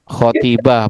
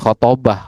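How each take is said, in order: First: The second vowel is an i sound. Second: The second vowel is an a sound. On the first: It does not mean giving a sermon. The speaker calls it wrong. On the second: It means giving a sermon. The speaker calls it right.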